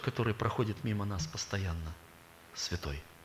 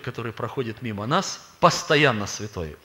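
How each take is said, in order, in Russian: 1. Пауза стоит после 'постоянно'. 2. Пауза стоит перед 'постоянно'.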